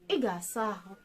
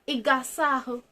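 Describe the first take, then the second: First: It is said with a level mid tone. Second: It is said with a raised high tone. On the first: It states that you will bathe. "Normal sentence, mid tone" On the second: It asks whether you will bathe. "You take it up"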